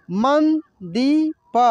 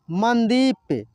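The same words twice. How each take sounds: First: मंदीप drawn out very slowly as मं-दी-प; slow syllable by syllable. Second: Said in the usual way. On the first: Shown as a demonstration. Teacher sounds out the word slowly for students. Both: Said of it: "कैसे इसको पढ़ेंगे".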